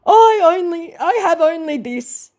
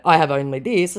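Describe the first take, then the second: First: High, hammed-up whine; melodramatic, pitched-up woe; mock lament. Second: Said in the usual way. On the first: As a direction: lament pitifully in a put-on voice. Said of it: "he laments".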